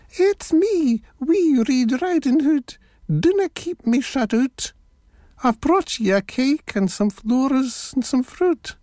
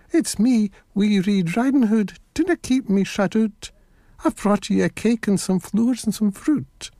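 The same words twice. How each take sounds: First: Very high put-on little girl voice; wee squeaky voice. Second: High, lightly voiced little girl; little girl's voice. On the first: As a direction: squeak it out as a wolf mimicking a child. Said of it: "put on a wee squeaky voice". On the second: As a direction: speak up as the real wee girl, not squeaky. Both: A narrator's reading.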